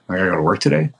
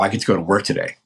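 First: The voice sounds weary and reluctant. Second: The voice sounds eager and excited. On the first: Work is an unwanted obligation. The speaker calls it wrong. "oh, geez" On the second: Work is something they look forward to. The speaker calls it right.

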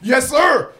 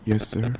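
First: It is said in a bold, confident way. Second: It is said in a shy, quiet way.

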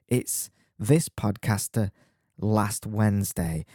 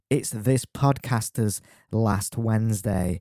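First: No s sound follows the word podcaster. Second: An s sound follows the word podcaster. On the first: The speaker calls it wrong. "There was an S missed off the pronunciation" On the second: The speaker calls it right. "there would have been an S on the end of there to show a possessive"

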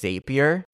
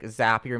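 First: The name does not rhyme with happier. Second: The name rhymes with happier. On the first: The speaker calls it wrong. "they kept pronouncing it as Zapier" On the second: The speaker calls it right. "Zapier makes you happier"

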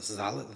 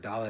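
First: The first sound is said softly. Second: The first sound is said harshly.

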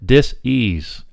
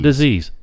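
First: There is a break between dis and ease. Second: It is said as one smooth word.

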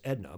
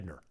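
First: The name ends in a plain vowel without r. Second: The name ends with an added r sound. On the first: "her name is Edna" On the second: "in proper New Hampshire pronunciation, it'd be Edner"

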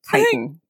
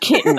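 First: The word does not sound like kitten. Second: The word sounds just like kitten. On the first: The speaker calls it right. "So it is indeed chitin" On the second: The speaker calls it wrong. "that's kitten. That's a small young cat"

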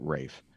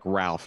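First: The name is said with no L sound. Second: The name is said with an L sound. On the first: The speaker calls it right. "he pronounces it Rafe" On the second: The speaker calls it wrong. "It looks like Ralph"

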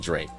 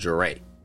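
First: The name is said at normal speed. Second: The name is said a little slower. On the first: "I always called him Dre, as in, you know, D-R-E Dre" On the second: "I would pronounce it Dre. I would say a little slower"

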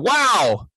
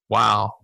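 First: The word is said in an excited, positive tone. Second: The word is said in a sad, sympathetic tone. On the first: The listener shares the joy of the news. "something that was really encouraging and we wanted to give them a positive reward" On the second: The listener shares the sadness of the news. "if something's super sad... We learn to just simply say, wow, with the right inflection"

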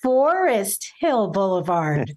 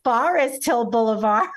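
First: It is said the way local Floridians say it. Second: It is said with a New Jersey pronunciation. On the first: This is how people in the area say it. The speaker calls it right. "because it's Forest Hill Boulevard" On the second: This is how a newcomer from elsewhere says it. The speaker calls it wrong. "not Forest Hill Boulevard"

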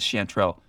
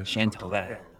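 First: It is said the plain English way, without a throaty r. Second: It is said the French way, with a throaty r. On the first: "I don't believe he said it that way. No, he says Chanterelle" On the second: "If I'm feeling fancy, I'll throw in the French. ... a little bit of that spittiness in the throat"

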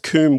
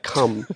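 First: The vowel is a long 'oo' sound. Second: The vowel is a short open 'u' sound. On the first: "Coom would be correct because you would pronounce the U" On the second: "the U would be a more open U"

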